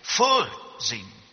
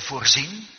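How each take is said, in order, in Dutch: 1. De klemtoon ligt op de eerste lettergreep. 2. De klemtoon ligt op de tweede lettergreep.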